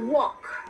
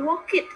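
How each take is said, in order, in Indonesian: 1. Akhirannya adalah bunyi yang samar, hampir tidak terdengar. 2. Akhirannya adalah suku kata tambahan yang terpisah. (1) "voiceless, nggak gitu kedengeran" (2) "bukan juga walk it"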